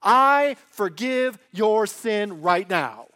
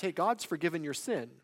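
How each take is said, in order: First: Loud, slow declaration with weight on I; authoritative declaration. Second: Casually stating a fact; matter-of-fact. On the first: Preacher voicing Jesus forgiving sin himself, slow loud authority. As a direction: hit "I" hard and long, then each word firmly. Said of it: "He is actually forgiving the sin himself". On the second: Preacher voicing someone merely reporting God's forgiveness, matter-of-fact. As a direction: pass it on as simple information. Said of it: "a fact". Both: Acted.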